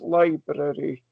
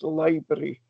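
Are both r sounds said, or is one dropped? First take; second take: both said; one dropped. First: Both r sounds in the word are pronounced. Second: One of the r sounds is left out. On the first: "when pronounced correctly as library" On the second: "So I took one of the R's off"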